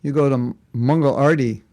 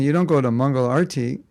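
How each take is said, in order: First: Mangal Arti in a light mock New Zealand accent; a playful New Zealand twist on Mangal Arti; teasing New Zealand accent, barely put on. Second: Mangal Arti said the ordinary way; set-up take before the joke; the usual way. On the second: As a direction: Mangal Arti with the first word stressed, falling at the end. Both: Shown as a demonstration. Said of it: "If you're from New Zealand".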